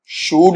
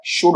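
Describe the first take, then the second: First: शूड with a drawn-out oo; शूड, vowel stretched long; wrong long vowel. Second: शुड with a short oo; शुड, short u as in put; correct short vowel. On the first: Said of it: "शूड नहीं होता है". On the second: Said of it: "शुड होता है". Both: Shown as a demonstration.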